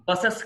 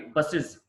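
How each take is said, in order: First: బసెస్ as "bus-ess"; wrong plural ending. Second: బసెస్ as "bus-iz"; "-iz" ending. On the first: Teacher showing learners the mistake, బసెస్ as "bus-ess". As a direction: end బసెస్ on open e and hissed s. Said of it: "కాదండి". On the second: Teacher correcting learners' plural, బసెస్ as "bus-iz". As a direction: end బసెస్ on short i and z. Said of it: "ఇజ్". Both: Shown as a demonstration.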